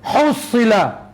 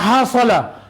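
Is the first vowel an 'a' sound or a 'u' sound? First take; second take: u sound; a sound. First: The first syllable has a 'u' vowel. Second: The first syllable has an 'a' vowel. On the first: "kita baca ha tu dengan baris depan" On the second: "membari ataskan huruf ha dan huruf sad"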